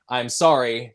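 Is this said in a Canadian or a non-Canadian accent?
non-Canadian. It is said in a non-Canadian accent. "they don't say"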